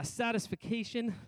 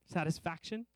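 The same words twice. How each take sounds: First: Satisfaction slipped out as "satis-fi-CAY-shun"; mispronounced satisfaction. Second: Said in the usual way. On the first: Real, not acted. Preacher fumbling a word mid-sermon, satisfaction mispronounced "satis-fi-CAY-shun". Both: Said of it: "I started saying another word".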